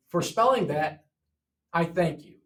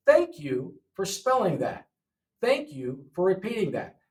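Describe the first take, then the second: First: Said in the usual way. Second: "Thank you" put up front and stressed; thank you first. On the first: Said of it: "But that's not normally how you would say it". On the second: Shown as a demonstration. Teacher showing the normal order to students. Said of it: "thank you" is different".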